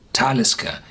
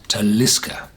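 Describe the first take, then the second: First: The stress is on the first syllable. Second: The stress is not on the first syllable. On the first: It is the Nordic pronunciation of the name. The speaker calls it right. "You pronounce this on the first syllable" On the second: It is how a Gaelic word would be pronounced. The speaker calls it wrong. "The Gaelic word uh, would have been called"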